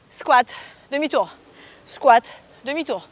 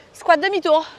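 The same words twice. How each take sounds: First: Slow demo. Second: Said in the usual way. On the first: Shown as a demonstration.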